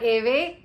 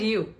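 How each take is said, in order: First: It is one syllable ending in a 'v' sound. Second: It is one syllable that sounds like 'you'. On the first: The speaker calls it wrong. "or Eve" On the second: The speaker calls it right. "you and you"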